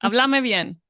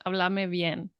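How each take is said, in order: First: It is said in a harsh, scolding tone. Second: It is said in a gentle, pleasant tone.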